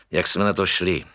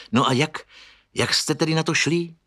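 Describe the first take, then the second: First: Musing echo of the question, falling at the end; pensive repeat. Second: Quick eager question rising high at the end. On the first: Souček echoes Pepa's question, musing and falling. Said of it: "opakoval pan Souček zamýšleně". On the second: Pepa questions Souček, eager and rising. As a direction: press him for an answer, lifting on the last words. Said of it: "vyptával se Pepa". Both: A narrator's reading.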